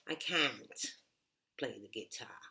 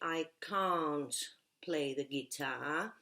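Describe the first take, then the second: First: It is said with an American English accent. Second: It is said with a British English accent. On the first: "In American English, you will say" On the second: "In British English, you will say"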